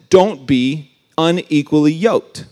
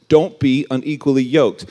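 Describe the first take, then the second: First: Slow, weighty, each word of "Don't be unequally yoked" laid down deliberately; solemn quote. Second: Said in the usual way. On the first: Shown as a demonstration. Preacher quoting Paul to youth, slow and weighty. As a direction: read the command like scripture.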